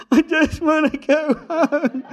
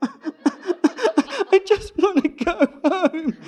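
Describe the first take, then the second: First: Much higher, louder, slow laughing plea; laughing whine. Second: Much higher, louder, very slow laughing plea; laughing whine. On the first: Driver repeating his plea to go home, laughing whine. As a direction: moan it through laughter, worn out. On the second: Driver pleading to go home, laughing whiny plea. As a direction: moan it through laughter, defeated. Exhausted plea after the whole ordeal. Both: Retold or imitated.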